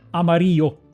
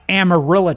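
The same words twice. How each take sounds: First: It is pronounced with Spanish sounds. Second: It is pronounced with English sounds. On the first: "Nobody pronounces it amarillo" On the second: "We got Amarillo, Texas"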